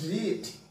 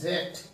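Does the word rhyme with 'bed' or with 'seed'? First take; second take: seed; bed. First: The vowel is long, rhyming with seed. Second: The vowel is short, rhyming with bed. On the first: The speaker calls it wrong. "Never pronounces at read" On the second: The speaker calls it right. "The past tense and past participle of read should be pronounced or has to be pronounced as read"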